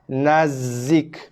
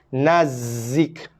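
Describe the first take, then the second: No difference in how they are said.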